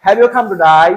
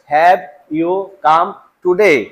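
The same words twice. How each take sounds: First: Laughing mock Australian drawl; "today" said like "to die" in an Australian voice; mock Australian accent. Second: Slow careful English question; "Have you come today?" spoken slowly and plainly. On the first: Teacher joking about how Australians sound to students, mock Australian. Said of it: "তুই কি মরতে আইছস". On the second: Shown as a demonstration. Teacher giving the standard English before the Australian one. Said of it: "ওরা কেমনে বলে?".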